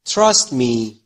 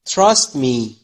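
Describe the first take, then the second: No difference in how they are said.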